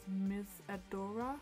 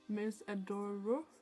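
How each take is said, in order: First: The name ends with an 'ah' vowel. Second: The name ends with an 'oh' vowel. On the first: The speaker calls it wrong. "I think I pronounced the brand as Miss Adora last time" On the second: The speaker calls it right. "it really is Miss Adoro, like with an O instead of an A"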